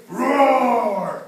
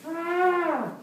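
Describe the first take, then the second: First: Long loud roar, falling away; animal roar. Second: Higher, less forceful roar; high drawn-out animal cry. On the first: Storyteller showing children jungle sounds, roaring. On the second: Storyteller showing children another jungle sound, high roar. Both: Acted. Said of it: "They didn't say".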